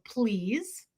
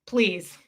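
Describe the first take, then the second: First: Soft please, rising at the end; soft polite "Please." with a rising end. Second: "Please." dropped flat and falling; curt falling "Please.". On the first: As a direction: say "Please." softly with a lifting, friendly tail. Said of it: "And I would always go". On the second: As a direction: clip "Please." short and falling like an afterthought. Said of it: "And he'd go". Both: Retold or imitated.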